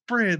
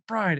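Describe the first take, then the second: First: The vowel is a short 'ih' sound. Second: The vowel is a long 'eye' sound. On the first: The speaker calls it right. "it's Brid" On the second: The speaker calls it wrong. "You don't say Bride"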